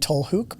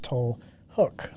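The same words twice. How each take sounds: First: The middle vowel is the Dutch 'oo' sound. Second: The middle vowel is an English 'oh' sound. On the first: "in Dutch it would be" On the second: "but in English it's"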